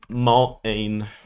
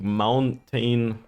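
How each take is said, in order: First: The T sound is dropped and swallowed. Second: The T sound is clearly pronounced.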